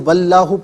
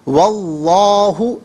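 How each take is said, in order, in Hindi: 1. L की आवाज़ पतली और हल्की है। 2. L की आवाज़ भारी और भरी हुई है। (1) "अब इससे वल्लाहु पढ़ना गलत है।" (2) "यहाँ पुर करके पढ़ा जाएगा।"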